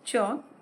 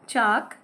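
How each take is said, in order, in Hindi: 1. स्वर अंग्रेजी की गोलाकार 'aw' ध्वनि है। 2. स्वर एक सामान्य खुला 'aa' ध्वनि है। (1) "आप ऐसे भी बोल सकते हैं ... ताकि अंग्रेजी के जो शब्द हैं वो आप हिंदी में उसी तरह प्रयोग कर सकें" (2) "कई लोग इसे ऐसे बोलते हैं"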